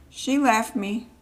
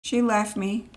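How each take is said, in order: First: "She left me" with the weight on "left"; stress on left. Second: "She left me" with the weight on "She"; stress on she. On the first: The baby repeating it, stress on "left". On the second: The baby voicing abandonment, stress on "She". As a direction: hit "She", the rest falling away. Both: Retold or imitated. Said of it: "He's like".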